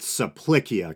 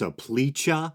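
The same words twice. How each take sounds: First: The c is a hard k sound. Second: The c is a soft ch-like sound. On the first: "the C should always be pronounced with a hard sound, so I'm going with" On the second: "sounds more like a modern Italian pronunciation"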